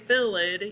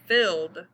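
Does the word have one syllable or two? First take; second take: two; one. First: The ending is said as an extra syllable. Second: The ending is a plain d sound, one syllable. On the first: The speaker calls it wrong. "You don't say filled" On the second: The speaker calls it right. "you say filled"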